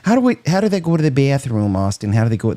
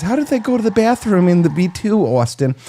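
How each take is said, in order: First: Quick imitation of a Michigan accent; lightly put-on Michigan accent. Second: Botched imitation in a New York accent; lightly done New York accent; attempted New York accent. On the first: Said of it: "That's [name]'s, uh, Michigan accent". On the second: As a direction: quote her in a put-on New York accent. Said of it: "that's a New York accent".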